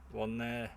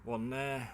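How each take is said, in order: Both takes have the same delivery.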